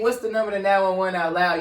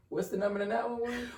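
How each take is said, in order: First: Repeating it louder and clearer; louder question. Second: Quiet question. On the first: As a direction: say it out loud to the room. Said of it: "And you say". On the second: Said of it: "And you say ... out loud". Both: Retold or imitated.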